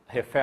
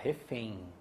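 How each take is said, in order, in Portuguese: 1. A vogal nasal final continua um e simples. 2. A vogal nasal final desliza para um i. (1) "A gente não fala refém" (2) "a gente fala refém. Coloca um I ali"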